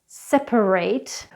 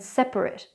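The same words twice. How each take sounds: First: The last syllable has a long 'ate' sound. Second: The last syllable has a short 'at' sound. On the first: It is used as a verb. "we use an ate sound" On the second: It is used as an adjective. "it's an at sound"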